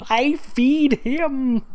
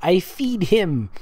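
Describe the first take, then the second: First: Very high, slow mocking echo; squeaky mock reread of the line; mocking repeat. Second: Said in the usual way. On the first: Shown as a demonstration.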